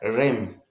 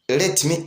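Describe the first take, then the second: First: The words blend into one short syllable. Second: Both words are said fully and separately. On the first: "ikihinduka lem" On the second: "Ubundi nta munyamerika avuga ngo let me"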